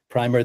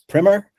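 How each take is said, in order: First: It sounds like the paint word. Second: It does not sound like the paint word. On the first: This names the undercoat paint. The speaker calls it wrong. "not like primer, the the paint" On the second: This is the intended way to say the title. The speaker calls it right. "most people say as primer"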